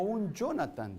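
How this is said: The name is said with an English-like pronunciation. "dirían aquí los franceses y los americanos"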